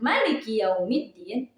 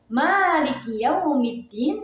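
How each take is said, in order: First: The first vowel 'ma' is kept short. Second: The first vowel 'ma' is drawn out long. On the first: God is the king of the Day of Judgment. "yang dipendekkan" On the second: God is the owner of the Day of Judgment. "Malik yang dipanjangkan ma-nya"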